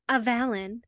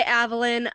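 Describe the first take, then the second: First: "Avalon" stressed on the second syllable; audiobook pronunciation of Avalon. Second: "Avalon" stressed on the first syllable; own pronunciation of Avalon. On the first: Host quotes audiobook's "Avalon", second syllable stressed. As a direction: say "Avalon" as uh-VAL-on. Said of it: "the graphic audio says Avalon". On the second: Host gives own way of saying "Avalon", first syllable stressed. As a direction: say "Avalon" as AV-uh-lon. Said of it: "I say Avalon". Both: Shown as a demonstration.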